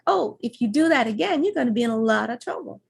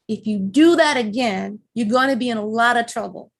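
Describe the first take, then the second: First: It is said in a light, playful tone. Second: It is said in a stern, scolding tone.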